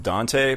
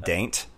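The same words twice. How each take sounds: First: Said in the usual way. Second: Daint squashed into one drawled syllable; local pronunciation. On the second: Shown as a demonstration. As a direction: say Daint to rhyme with taint. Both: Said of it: "they call it Daint".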